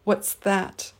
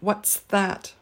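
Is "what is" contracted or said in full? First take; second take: contracted; contracted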